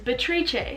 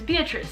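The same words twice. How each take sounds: First: The name blends English and non-English pronunciation. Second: The name is said with a fully English pronunciation. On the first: The speaker calls it right. "the hybrid version of my name" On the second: The speaker calls it wrong. "the English version"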